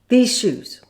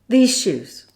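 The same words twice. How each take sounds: Both takes have the same delivery.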